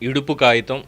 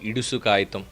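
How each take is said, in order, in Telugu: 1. మొదటి పదాన్ని p శబ్దంతో అంటారు. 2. మొదటి పదాన్ని s శబ్దంతో అంటారు.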